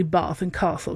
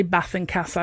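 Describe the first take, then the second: First: Long "ah" in Bath and Castle; posh southern vowels. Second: Short flat a in Bath and Castle; northern short vowels. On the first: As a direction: say Bath and Castle as "Bahth and Cahstle". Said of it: "I don't say ... 'cause that's posh". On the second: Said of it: "it's definitely north. So I say". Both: Shown as a demonstration.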